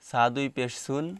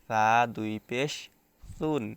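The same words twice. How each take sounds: First: The syllable starts with a plain hissing s. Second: The syllable starts with a soft lisped th. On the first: The speaker calls it wrong. "এখন আমি যদি বলি সা দুই পেশ সুন, সিন দুই পেশ সুন, দুইটার উচ্চারণ একই রকম হয়ে যাচ্ছে" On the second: The speaker calls it right. "এটা হচ্ছে নরম হবে"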